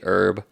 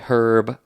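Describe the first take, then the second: First: The word begins without an h sound. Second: The word begins with an h sound. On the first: This is the American way of saying it. "I say herb" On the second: This is the British way of saying it. "You say herb"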